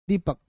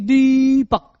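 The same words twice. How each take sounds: First: The first vowel is held only slightly long. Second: The first vowel is stretched out very long. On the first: The speaker calls it right. "तो दी में हल्का सा long है" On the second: The speaker calls it wrong. "लंबा का मतलब ऐसा नहीं कि दीपक, ऐसा नहीं"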